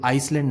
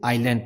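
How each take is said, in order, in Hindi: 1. L से पहले S की ध्वनि सुनाई देती है। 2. L से पहले कोई व्यंजन सुनाई नहीं देता। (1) "इसे हम आइसलैंड नहीं पढ़ते" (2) "इसे आइलैंड पढ़ते हैं"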